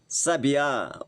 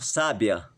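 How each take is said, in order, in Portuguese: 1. A tônica é a última sílaba. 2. A tônica é a primeira sílaba.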